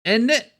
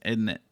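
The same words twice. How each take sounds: First: "Isn't it?" in a mock British accent, pitched high and punched loud. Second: Said in the usual way. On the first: Showing off a favorite British phrase, mock British accent. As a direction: ham up the British "Isn't it?" with a sharp high lift. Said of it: "favorite word that the British people have given us". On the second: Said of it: "my favorite slang is".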